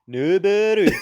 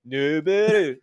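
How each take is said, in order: First: The name is said with a Japanese accent. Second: The name is said with a Canadian accent. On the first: "say it like Japanese?" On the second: "standard Canadian accent"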